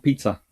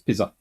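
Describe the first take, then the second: First: The middle sound is a ts sound. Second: The middle sound is a plain z sound. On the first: "not pizza" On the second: "He just thought that was what the Zeds meant"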